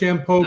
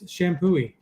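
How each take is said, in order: First: The name ends on a plain 'poo' sound. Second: The name ends with an extra 'ee' syllable. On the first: The speaker calls it wrong. "I thought it was Shampoo the first time I saw it" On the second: The speaker calls it right. "I have a friend that grew up near there, and it's Shampooey"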